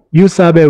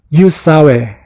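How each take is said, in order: First: The middle consonant is a b sound. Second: The middle consonant is a w sound. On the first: This is the traditional way of saying it. "Kung medyo traditional nga, ang sasabihin mo sa kanila" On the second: This is how young people say it. "yung pronunciation ng sawe is medyo, medyo nag-iiba na, nagiging sawe"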